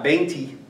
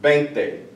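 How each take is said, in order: First: "veinti" ending in an ee sound; wrong final vowel. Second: "veinte" ending in an eh sound; correct final vowel. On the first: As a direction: end "veinti" on ee instead of eh. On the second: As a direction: end "veinte" on tay, never tee. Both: Shown as a demonstration. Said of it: "not veinti".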